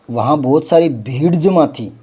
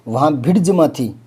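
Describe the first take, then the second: First: भीड़ with a stretched ī; correct long vowel. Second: भीड़ said as a brief "bhid"; mock error, short i in भीड़; wrong short vowel. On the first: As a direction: draw out भीड़ as "bheed". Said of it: "ये होता है भीड़". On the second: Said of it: "यूँ थोड़ी आएगा". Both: Shown as a demonstration.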